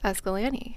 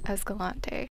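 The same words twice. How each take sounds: First: It is pronounced the way locals say it. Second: It is pronounced the way outsiders say it. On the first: The speaker calls it right. "the same way the locals pronounce it. It's Escalante" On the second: The speaker calls it wrong. "not Escalante"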